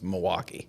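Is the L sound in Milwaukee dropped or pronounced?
dropped. It is said the local way, without the L.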